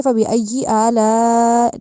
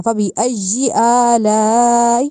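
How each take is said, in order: First: فبأي آلاء without a firm shadda; wrong way. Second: Slow فبأي with a hard doubled yaa; slow recitation, firm shadda. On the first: Teacher showing the mistake. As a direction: glide over the yaa in فبأي. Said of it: "نہیں، ایسے نہیں کہنا". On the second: Teacher reciting the correct form. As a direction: press the shadda hard, then stretch آلاء. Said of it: "اس طرح کہا جائے گا". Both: Shown as a demonstration.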